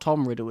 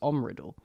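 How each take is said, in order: First: The name begins with a clear T sound. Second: The name begins with a vowel, no T. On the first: "his name's not Tom Riddle" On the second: "So if the T is silent"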